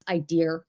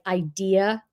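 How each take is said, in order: First: The word ends with an added R sound. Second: The word ends in a plain vowel, no R.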